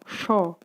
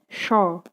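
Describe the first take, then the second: First: The hissing air stays trapped inside the mouth. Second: The hissing air stays trapped inside the mouth.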